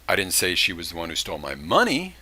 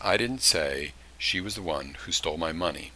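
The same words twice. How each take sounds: First: The word "money" carries the main stress. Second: No word stands out; the sentence is flat. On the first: "she would, did steal something, but she didn't steal money" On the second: "I've got no inflection on any part of that sentence"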